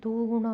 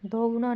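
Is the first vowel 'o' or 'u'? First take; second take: u; o. First: The first vowel sounds like 'u'. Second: The first vowel sounds like 'o'. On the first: The speaker calls it right. "दुगुना होगा" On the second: The speaker calls it wrong. "दोगुना नहीं"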